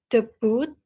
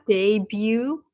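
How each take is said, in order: First: It is pronounced in the Indonesian way. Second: It is pronounced in the English dictionary way. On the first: "in Indonesian, it's debut" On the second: "the dictionary pronunciation is like debut"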